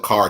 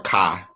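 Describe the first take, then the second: First: The final R sound is pronounced. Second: The final R sound is dropped.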